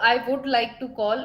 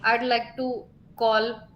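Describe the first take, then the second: First: 'I would' is said as two full words. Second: 'I would' is shortened to a single syllable. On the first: "एक तो मैं बोलूं आई वुड like to call" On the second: "आई के बाद डी लग जाता है"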